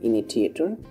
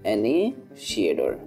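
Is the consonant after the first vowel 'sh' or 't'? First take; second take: t; sh. First: The word has a 't' sound in the middle. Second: The word has a 'sh' sound in the middle. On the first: The speaker calls it wrong. "এটা তোমরা হয়তো এটাকে পড়বে হচ্ছে যে ইনিটিয়েটর, but হচ্ছে যে এটার উচ্চারণ এভাবে না" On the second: The speaker calls it right. "এটার উচ্চারণ হবে অ্যানেশিয়েটর"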